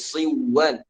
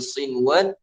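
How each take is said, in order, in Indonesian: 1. Bunyi n menyatu dengan w setelahnya. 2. Bunyi n terdengar jelas sebelum w. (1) "Jadi bukan dibaca siwan" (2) "tapi sinwan"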